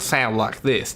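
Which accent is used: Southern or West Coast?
Southern. It is said in a Texan Southern accent. This is not how the speaker really talks. The speaker calls it wrong. "Texas? ... now I don't sound like this, do I?"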